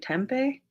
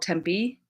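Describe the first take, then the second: First: The name is pronounced the Spanish way. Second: The name is pronounced the usual English way. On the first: This is how outsiders such as newscasters say it. The speaker calls it right. "it's a Spanish word, I believe. I think it should be Tempe" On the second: This is how the people who live there say it. The speaker calls it wrong. "It's not how that word should be pronounced"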